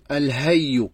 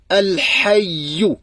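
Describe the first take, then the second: First: The h is a plain, open-throat breath. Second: The h is tight and made deep in the throat. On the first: The speaker calls it wrong. "La majorité des francophones, ils le prononcent comme, comme le ha" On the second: The speaker calls it right. "Mais là, c'est, ça touche"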